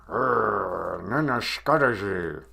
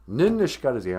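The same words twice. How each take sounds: First: Mock growl through clenched teeth; through gritted teeth. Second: Said in the usual way. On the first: Shown as a demonstration. Host demonstrates saying angry in Ojibwe, gritted-teeth growl. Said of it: "you can say through grit teeth".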